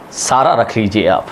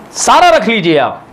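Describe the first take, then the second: First: Said in the usual way. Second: Raised, insistent repeat. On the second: Shown as a demonstration. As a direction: call it out to the crowd, सारा stressed high.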